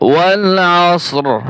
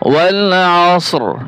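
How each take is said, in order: First: The last word ends with a bare 'r' sound. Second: The last word ends with a bare 'r' sound.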